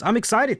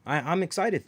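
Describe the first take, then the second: First: Excited. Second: Said in the usual way. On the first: Real, not acted.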